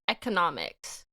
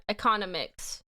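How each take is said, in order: First: Economics said as eck-uh-NOM-iks; Economics with stress on NOM, careful correction; Economics fixed as eck-uh-NOM-iks; corrected word. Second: Economics said as ih-KON-uh-miks; economics with a short ih start and stress on KON; economics mispronounced ih-KON-uh-miks; fumbled word. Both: Real, not acted. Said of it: "Oh my god, I'm stupid".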